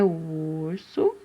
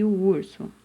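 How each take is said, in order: First: Urso low and slow, long held U; stretched first vowel. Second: Said in the usual way. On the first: Shown as a demonstration. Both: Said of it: "Com a letrinha U".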